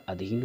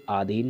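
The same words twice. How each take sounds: First: अधीन opening on short a, softer; correct short a. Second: आधीन opening on long aa; wrong long aa. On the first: Teacher giving the right word, अधीन with short first vowel. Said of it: "अधीन होता है". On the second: Teacher citing the error, आधीन with long first vowel. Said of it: "आधीन नहीं होता". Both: Shown as a demonstration.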